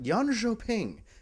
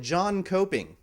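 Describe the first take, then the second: First: The word begins with a Y sound. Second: The word begins with an English J sound. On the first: The speaker calls it right. "K's are J's and J's are Y's in Sweden" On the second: The speaker calls it wrong. "an uninformed PC gamer uh, might call it"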